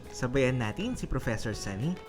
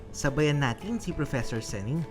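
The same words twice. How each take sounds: The two takes are said the same way.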